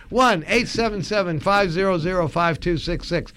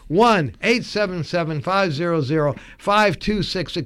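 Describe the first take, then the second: Both takes have the same delivery.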